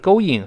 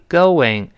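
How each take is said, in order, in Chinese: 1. 两个元音之间没有 w 滑音。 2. w 滑音把两个元音连起来。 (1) "但也不是going" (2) "中间人为的加一个what"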